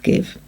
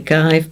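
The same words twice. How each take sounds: First: The vowel is short, as in gift. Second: The vowel is long, rhyming with five. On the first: This is how the word is actually said. The speaker calls it right. "but it is give" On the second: This is how the spelling suggests it should sound. The speaker calls it wrong. "this should say give"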